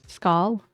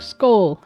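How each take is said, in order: First: The vowel sounds like the one in 'dull'. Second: The vowel sounds like the one in 'bowl'. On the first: The speaker calls it wrong. "Am I pronouncing it right?" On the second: The speaker calls it right. "like bowl"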